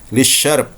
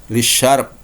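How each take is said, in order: The two takes are said the same way.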